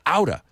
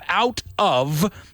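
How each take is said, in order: First: The words blend into one reduced word. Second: Both words are said separately and fully. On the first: "they say outa" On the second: "Instead of out of"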